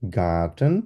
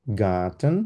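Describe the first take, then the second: First: Garten said with a hard G and a German "ah"; German word. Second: Garten repeated, lower and calm; German word repeated. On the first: Teacher giving a German example word. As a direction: demonstrate Garten slowly. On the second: Teacher repeating the example word. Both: Shown as a demonstration. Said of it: "zum Beispiel".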